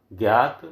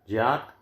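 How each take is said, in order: First: ज्ञात said as gyaat, with gy; ज्ञात with a g-y sound; gya form. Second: ज्ञात said as jyaat, with jy; ज्ञात with a j-y sound; jya form. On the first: Teacher contrasting the gy reading. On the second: Teacher giving the other reading, jy. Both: Shown as a demonstration. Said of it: "ज्ञान शब्द का शुद्ध रूप है".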